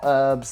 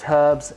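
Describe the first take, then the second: First: The word begins with a vowel, no h. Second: The word begins with an audible h sound. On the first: The speaker calls it wrong. "I don't know why you Americans say herbs" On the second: The speaker calls it right. "There is an H in there"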